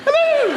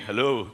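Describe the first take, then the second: First: It is said in a camp, lively way. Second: It is said in a quiet, serious way.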